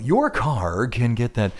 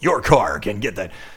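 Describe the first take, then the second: First: It is read in a light, easy way. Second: It is read in a hard, forceful way.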